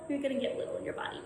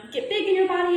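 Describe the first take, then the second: First: Much softer and quick, words made tiny; small and soft. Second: Big and bold. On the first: Teacher showing the class how little feels, said small and soft. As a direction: shrink the voice to show getting little. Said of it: "when I say get little". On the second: Teacher showing the class how big feels, said big and quick. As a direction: say it big and quick, a little louder. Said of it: "When I say get big". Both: Shown as a demonstration.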